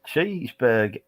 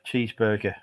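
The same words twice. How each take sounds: First: It is said in an attempted American accent. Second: It is said in the speaker's ordinary British accent.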